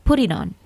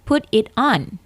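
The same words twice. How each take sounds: First: The words run together in one breath. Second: Each word is said separately. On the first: The speaker calls it right. "Sekali ucap" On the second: The speaker calls it wrong.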